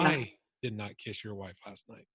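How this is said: The stress falls on the word "I". "the tone on the word I"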